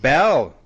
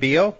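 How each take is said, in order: First: The name is said with a short e vowel. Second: The name is said with a long ee vowel. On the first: The speaker calls it right. "It's Bell, actually" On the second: The speaker calls it wrong. "Is it Beal?"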